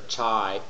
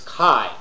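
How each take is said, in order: First: The word starts without a hard k sound. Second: The word starts with a hard k sound. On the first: The speaker calls it wrong. "or chi" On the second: The speaker calls it right. "It's chi, hard k sound"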